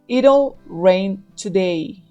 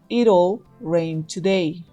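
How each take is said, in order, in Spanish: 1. 'It will' se reduce a una sílaba, it'll. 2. 'It will' se reduce a una sílaba, it'll.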